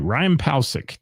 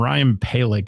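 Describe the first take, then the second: First: The surname is said with an s sound. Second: The surname is said without an s sound. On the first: The speaker calls it right. "I guess it's Palsic" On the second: The speaker calls it wrong. "I've been saying it wrong"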